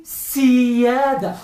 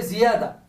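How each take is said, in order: First: "siada" with voiceless s, drawn out slowly; sin. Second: "Ziada" with voiced z; zay. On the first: Teacher contrasting sovereignty with increase, voiceless s in "siada". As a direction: hiss the s and stretch "siada". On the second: Teacher contrasting increase with sovereignty, voiced z in "Ziada". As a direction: buzz the start of "Ziada". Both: Shown as a demonstration. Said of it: "Y ahora zay y sin".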